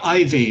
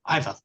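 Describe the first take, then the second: First: The name ends with an 'ee' sound. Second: The name ends with an 'uh' sound. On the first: The speaker calls it wrong. "you don't say Ivy if you're talking to them" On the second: The speaker calls it right. "They're Ivas"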